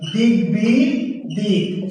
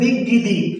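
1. g ও b দুটি ধ্বনিই উচ্চারণ করা হয়। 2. b ধ্বনিটি বাদ যায়, উচ্চারণ করা হয় না। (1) "গ ব দুটির উচ্চারণ হচ্ছে" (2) "আবার বলেন না যে"

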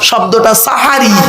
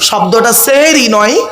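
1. প্রথম স্বরটি 'a' ধ্বনি। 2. প্রথম স্বরটি 'e' ধ্বনি। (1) "দন্তেশ্বয় আকার" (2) "দন্তেশ্বয় একার নয়"

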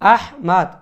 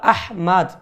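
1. নামটি শেষে একটি স্পষ্ট, খোলা 'mad' ধ্বনি দিয়ে শেষ হয়। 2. নামটি শেষে একটি স্পষ্ট, খোলা 'mad' ধ্বনি দিয়ে শেষ হয়।

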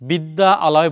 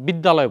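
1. दोनों स्वर अलग-अलग ध्वनियों के रूप में बोले जाते हैं। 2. दोनों स्वर मिलकर एक लंबा स्वर बन जाते हैं। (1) "বিদ্যা আলয় বলি না আমরা" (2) "বিদ্যালয় বলি"

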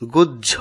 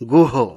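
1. शब्द बढ़ी हुई व्यंजन ध्वनि के साथ खत्म होता है। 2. शब्द बढ़ी हुई व्यंजन ध्वनि के बिना खत्म होता है। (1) "শুদ্ধ উচ্চারণ হবে গুহ্য" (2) "আমরা অনেকেই ভুলবশত উচ্চারণ করি গুহ"

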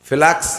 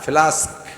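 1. শব্দটি 'ks' ধ্বনি দিয়ে শেষ হয়। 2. শব্দটি 'sk' ধ্বনি দিয়ে শেষ হয়। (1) "ফ্লাক্স না ফ্লাস্ক" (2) "ফ্লাক্স না ফ্লাস্ক"

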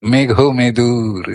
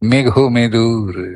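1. এটি স্বাভাবিক, উজ্জ্বল সুরের স্বরে বলা হচ্ছে। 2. এটি স্বাভাবিক, উজ্জ্বল সুরের স্বরে বলা হচ্ছে।

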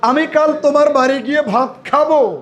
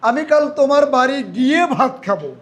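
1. খাবো শব্দে জোর দেওয়া হয়েছে। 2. গিয়ে শব্দে জোর দেওয়া হয়েছে। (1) "আরেকটা ভার্বের উপরে একটু জোর দেই, খাওয়ার উপরে" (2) "আমি ভার্বে জোর দিই"

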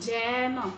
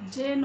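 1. স্বরধ্বনিটি একটি খোলা æ ধ্বনি। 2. স্বরধ্বনিটি একটি বদ্ধ e ধ্বনি। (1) "আমরা বলবো যেন" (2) "যেন না"

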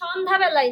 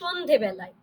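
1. দ্বিতীয় অংশটি 'dhya' উচ্চারিত হয়। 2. দ্বিতীয় অংশটি 'dhe' উচ্চারিত হয়। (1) "তবে সন্ধ্যাবেলায় না" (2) "এখানে কিন্তু আছে সন্ধেবেলায়"

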